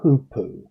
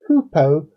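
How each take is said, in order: First: The final vowel sounds like 'oo'. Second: The final vowel sounds like 'oh'. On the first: This is how someone else pronounced it. "pronounced it hoopoo" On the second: This is the speaker's own usual pronunciation. "the way I have always pronounced it"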